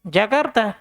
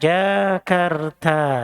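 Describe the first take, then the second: First: The vowels are kept short. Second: The vowels are drawn out long. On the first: The speaker calls it right. "semua nama kota ya, itu tidak dipanjangkan" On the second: The speaker calls it wrong. "nggak usah baca Jakarta"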